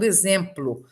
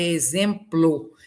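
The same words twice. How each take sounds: First: "exemplo" pronunciado exemplu, como na fala; o final como u. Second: "exemplo" com o final fechado, não u; pronúncia da escrita. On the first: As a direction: termine "exemplo" com som de u. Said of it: "por mim como u". ("exemplo" com u átono no final) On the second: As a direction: leia "exemplo" como se escreve, terminando em ô. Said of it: "a palavra escrita é". ("exemplo" com o o final bem pronunciado) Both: Shown as a demonstration.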